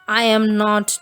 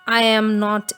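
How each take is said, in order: Both takes have the same delivery.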